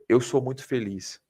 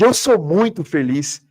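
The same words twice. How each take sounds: First: It is said with plain, calm energy. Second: It is said with strong, heightened intensity. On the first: "Se eu falar assim" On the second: "se eu mudar a intensidade"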